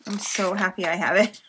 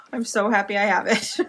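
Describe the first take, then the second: First: Said in the usual way. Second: Giggling through the words; happy laugh in the voice; laughing happily. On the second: Real, not acted. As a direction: laugh as you say it. Same line said twice.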